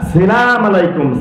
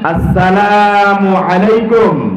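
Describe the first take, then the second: First: The greeting starts with 'salam', dropping the opening syllable. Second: The greeting starts with 'assalamu', keeping the opening syllable. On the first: The speaker calls it wrong. "অনেকে বলে না সালাম আলাইকুম" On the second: The speaker calls it right. "আমি যা বলবো আপনারা তাই বলবেন।"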